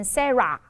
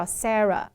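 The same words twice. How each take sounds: First: "Sarah" ending in a full "AH"; schwa turned ah. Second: "Sarah" ending in a light uh; correct schwa. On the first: Teacher imitating students, full ah ending. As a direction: open ah on the end of "Sarah". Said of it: "会把它喊成". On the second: Teacher giving the girl's name, light schwa ending. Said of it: "就是轻声呃". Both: Shown as a demonstration.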